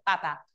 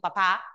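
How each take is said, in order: First: The stress is on the first syllable. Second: The stress is on the last syllable. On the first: It means the potato or the pope. "Papa es el tubérculo. O también puede ser el cura" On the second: It means the person's father. "ya cambiando el acento"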